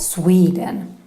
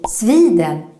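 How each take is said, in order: First: The vowel is said with an English sound. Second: The vowel is said with a Swedish sound. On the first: The speaker calls it right. "instead of Sweden" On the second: The speaker calls it wrong. "when we say Sweden"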